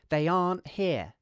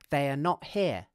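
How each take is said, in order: First: Are not is shortened into one syllable. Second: Every word is said in full. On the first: "we could contract are not" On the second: "this is not the same as saying they are not here"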